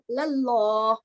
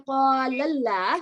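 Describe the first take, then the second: First: The L sound is heavy and thick. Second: The L sound is light and thin. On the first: The speaker calls it right. "you said" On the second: The speaker calls it wrong. "you didn't say"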